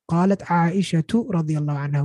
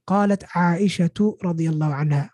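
First: Aisha ends with a t sound before the next word. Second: The same.

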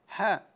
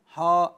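First: The h sound is light and thin. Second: The h sound is heavy and emphatic. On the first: The speaker calls it right. "كل حاء في القرآن مرققة" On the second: The speaker calls it wrong. "لا أقول حاء حاء"

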